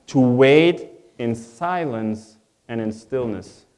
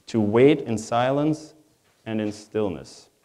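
Both takes have the same delivery.

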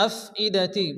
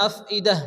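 First: Said in the usual way. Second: আফইদাহ ending in a breathed h; final ta as ha. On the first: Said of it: "আয়াতের শেষে যদি গোলতা". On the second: Shown as a demonstration. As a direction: stop আফইদাহ on an audible h, no t. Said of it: "তাটা হা হবে".

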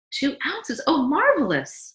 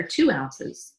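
First: High, amazed echo, then a loud exclamation; delighted. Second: Said in the usual way. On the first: Acted. Wife hears baby took more milk, delighted. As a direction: marvel at it, pitched way up.

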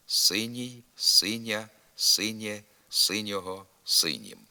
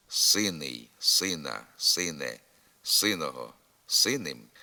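First: Синій, синя, синє with palatalised n: syniy, synia, synie; soft н. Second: Синий, сина, сине with a hard, unpalatalised n. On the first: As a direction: soften the н in синього, синім to "ny". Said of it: "завжди пом'якшується". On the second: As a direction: keep the н hard in синого, синим, no y-glide. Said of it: "Тверда вимова приголосного перед закінченням". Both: Shown as a demonstration.

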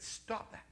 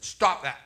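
First: Whispered quiet command; God whispering. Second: Loud, curt command from God; God shouting. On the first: God telling the preacher to stop praying, whispered command. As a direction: breathe the order softly. God speaks a third time. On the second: God shouting down the preacher's prayer, loud command. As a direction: bark the order from above. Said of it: "God shouted at me". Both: Retold or imitated.

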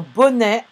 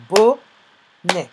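First: Said in the usual way. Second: "bonnet" in two separated syllables, BO... NNET. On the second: Shown as a demonstration. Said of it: "on l'entend dans la deuxième syllabe". (« bonnet » découpé en deux syllabes)

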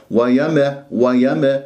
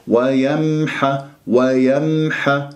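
First: ويم with the م wrongly popped open; echoing little vowel after م in ويم; bounced meem. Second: Slow ويمح with the م briefly hummed; flowing meem. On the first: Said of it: "يقرأها مقلقلة". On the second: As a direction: let sound run through م in ويمح. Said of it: "تعطي مجال لجريان الصوت". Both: Shown as a demonstration.

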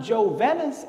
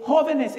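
First: "Jovenes" with an English J, as joe-VEN-ess; wrong anglicized pronunciation. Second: "jóvenes" with J as H, HO-veh-ness; correct Spanish pronunciation. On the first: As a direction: misread "Jovenes" with a hard English J. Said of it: "it's not Jovenes". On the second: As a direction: stress the first syllable of "jóvenes", Spanish J. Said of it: "it's not Jovenes, it's jóvenes". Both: Shown as a demonstration.

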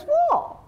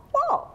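First: Sudden high-pitched shocked what; startled what. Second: High questioning what with a rise; puzzled what. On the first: Woman looking in the mirror, startled high what. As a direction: jump up in pitch, caught off guard. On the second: Woman at the mirror asking, high and puzzled. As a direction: ask again, confused and high. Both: Retold or imitated. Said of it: "and she goes".

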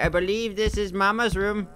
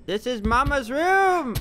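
First: Said in the usual way. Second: High, drawn-out announcement; hammed-up exclamation. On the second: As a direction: wail it out, pitched high and stretched. Repeats it calling out.

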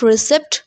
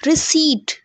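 First: Receipt as ri-SEPT, p sounded; mispronunciation. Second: Receipt as ri-SEET, silent p; correct pronunciation. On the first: Teacher showing the common error, mispronounced. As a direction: say receipt with short e and audible p. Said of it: "it's not receipt". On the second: Teacher giving students the right form, correctly pronounced. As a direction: say receipt with long ee and no p. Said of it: "It's called receipt". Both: Shown as a demonstration.

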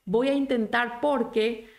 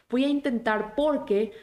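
No difference in how they are said.

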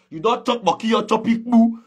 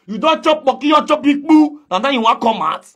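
First: Said in the usual way. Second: Escalating taunt, higher and louder; louder repeat. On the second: Real, not acted.

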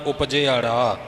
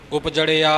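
First: ਉਪਜਿਆੜਾ as upji-aara, ੜ in the last syllable; ਉਪਜਿਆੜਾ carefully articulated with long final vowels; corrected pronunciation. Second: ਉਪਜੜਿਆ with the ੜ straight after the ਜ; ਉਪਜੜਿਆ said as careless reciters do, upjaria; common misreading. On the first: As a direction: sound ਜ, ਆ, ੜ in that order in ਉਪਜਿਆੜਾ. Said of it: "ਉਪਜੜਿਆ ਨਹੀਂ ਬੋਲਣਾ". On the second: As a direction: run ਜ into ੜ, ending -ia, in ਉਪਜੜਿਆ. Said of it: "ਪਾਠੀ ਆਮ ਬੋਲ ਜਾਂਦੇ ਨੇ". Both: Shown as a demonstration.

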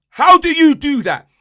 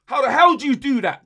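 First: Louder and higher, demanding an answer; fed-up fan yelling at the captain; exasperated shout. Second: Said in the usual way. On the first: Real, not acted. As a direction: throw the question at him in disbelief. Ranting fan repeats, louder.

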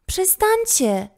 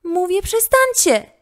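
First: High, drawn-out squeaky plea. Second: Put-on high, loud, insistent girl's shout. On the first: Frightened girl speaks up to the gang, squeaky voice. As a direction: squeak it out slowly, far above normal pitch. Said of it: "odezwała się piskliwym, ledwo słyszalnym głosem". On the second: Girl finally finds her voice against the gang, shout. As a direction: yell it at full pitch, demanding. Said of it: "krzyknęła w końcu". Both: A narrator's reading.

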